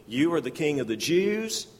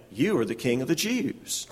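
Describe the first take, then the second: First: "You are the king of the Jews" asked as a doubting question. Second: "You are the king of the Jews" stated flatly, falling at the end; affirming. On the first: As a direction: let the line question him. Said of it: "One is questioning". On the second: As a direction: state it as a fact. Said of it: "the other is affirming". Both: Shown as a demonstration.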